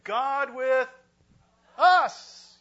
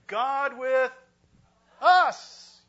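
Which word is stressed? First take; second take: us; us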